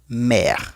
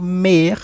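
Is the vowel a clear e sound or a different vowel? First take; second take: clear e; different vowel. First: The vowel is a clear e sound. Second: The vowel is not a clear e sound. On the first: The speaker calls it right. "sino mer, como e" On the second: The speaker calls it wrong. "yo no digo mer"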